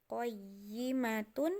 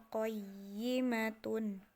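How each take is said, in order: The two takes are said the same way.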